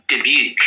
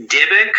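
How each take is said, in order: First: "Dybbuk" said as dib-YOOK; second pronunciation option. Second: "Dybbuk" said as DIB-ik; first pronunciation option. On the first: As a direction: say "Dybbuk" with a long oo ending. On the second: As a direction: say "Dybbuk" with a short ik ending. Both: Shown as a demonstration. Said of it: "it's either".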